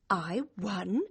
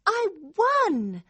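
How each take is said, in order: First: Tentative, hushed realisation; stunned disbelief. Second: High, exultant cry; overjoyed. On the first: Girl takes in that she won, stunned disbelief. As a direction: test the words as if unsure. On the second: Girl fully believes she won, overjoyed. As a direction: burst with joy at winning. Joy bursts out. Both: Acted.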